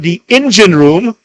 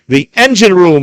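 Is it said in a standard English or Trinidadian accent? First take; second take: Trinidadian; standard English. First: It is said in a Trinidadian accent. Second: It is said in a standard English accent.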